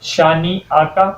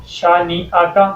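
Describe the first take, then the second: No difference in how they are said.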